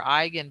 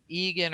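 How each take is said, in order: First: Eigen starting with an "eye" sound; Eigen, first syllable like "eye"; long I in Eigen. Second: Egan starting with an "ee" sound; Egan, first syllable like "ee"; long E in Egan. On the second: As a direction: say Egan as EE-gun. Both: Shown as a demonstration. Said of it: "Egan or Eigen".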